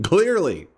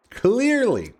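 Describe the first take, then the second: First: Dry sarcastic "Clearly". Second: "Clearly" pitched higher, exaggerated sarcasm; sarcastic higher. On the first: Pretend. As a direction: say "Clearly" flatly with a sarcastic fall. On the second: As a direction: push "Clearly" up higher and overplay it.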